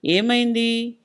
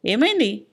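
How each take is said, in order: First: ఏమైంది drawn out and held level at the end; voice from inside. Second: Short ఏమైంది with a rise and quick fall; prompting question. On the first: Wife answering from inside the kitchen, drawn-out ఏమైంది. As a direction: stretch ఏమైంది, letting it hang without falling. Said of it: "లోపల నుంచి సరోజ గొంతు వినబడింది". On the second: Husband quizzing his wife about the man, prompting ఏమైంది. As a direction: prod for an answer on ఏమైంది, dropping at the end. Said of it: "అన్నాడు". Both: A narrator's reading.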